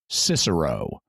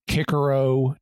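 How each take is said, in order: First: The name is said in traditional English style. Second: The name is said in classical Latin style. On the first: "or more familiarly" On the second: "There's a classical pronunciation"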